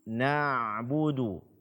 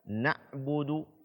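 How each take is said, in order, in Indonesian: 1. Suara tetap mengalir melalui bunyi ain. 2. Suara terputus pada bunyi ain. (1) "suara masih tetap mengalir" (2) "Bukan na'budu"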